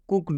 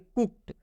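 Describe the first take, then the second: First: The word ends with a d sound. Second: The word ends with a t sound. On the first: "इस डी का उच्चारण ड भी करते हैं" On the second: "डी का उच्चारण ट हो जाएगा"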